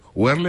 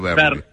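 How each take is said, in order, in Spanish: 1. El nombre empieza con un sonido parecido a la W. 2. El nombre empieza con un sonido parecido a la B.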